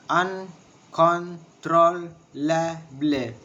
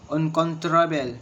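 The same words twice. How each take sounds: First: "Uncontrollable" drawn out in separate syllables; very slow, a gap after each syllable. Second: Said in the usual way. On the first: Shown as a demonstration. Teacher showing the syllables of uncontrollable, syllable by syllable. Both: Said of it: "six syllables".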